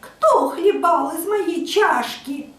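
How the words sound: A thin, high, squeaky little voice.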